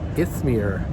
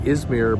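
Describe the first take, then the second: First: It is said the local Turkish-style way. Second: It is said the common North American way. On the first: This is how the name is properly said. The speaker calls it right. "but it's Ithmir" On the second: This is how visitors from North America say it. The speaker calls it wrong. "Most of us, maybe in in Canada, U S, pronounce it Izmir"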